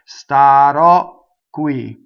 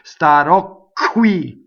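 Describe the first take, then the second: First: The k sound before qui is held long. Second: The k sound before qui is short. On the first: The speaker calls it right. "And that's what makes the double Q" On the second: The speaker calls it wrong. "That's not a double Q. That's nothing"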